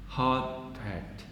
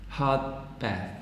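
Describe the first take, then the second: The two takes are said the same way.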